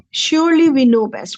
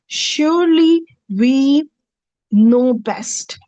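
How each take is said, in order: First: Said in the usual way. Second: SURELY drawn out, raised, then a pause before "know best"; slow emphatic translation. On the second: Shown as a demonstration. Teacher slowly translating the verse for students, drawn-out stress. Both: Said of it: "La nahnu a'lamu".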